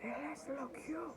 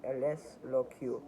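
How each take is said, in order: First: Thin, high, slow Spanish line; high character voice. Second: Said in the usual way. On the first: Acted. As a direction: say it softly in a high put-on voice. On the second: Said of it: "I think I said that right".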